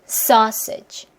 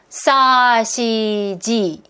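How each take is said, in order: First: The first syllable is long and strong, the second short. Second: All syllables are said with equal length and force. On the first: The speaker calls it right. "길게 짧게 하면은 박자감이 나오죠" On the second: The speaker calls it wrong. "이러면 박자감이 안 나오잖아요"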